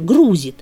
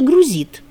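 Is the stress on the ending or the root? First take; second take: root; ending. First: The stress falls on the root syllable. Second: The stress falls on the ending syllable. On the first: This is the current accepted form. "с корневым ударением составители словарей соглашаются" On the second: This is an outdated form. "устаревшее"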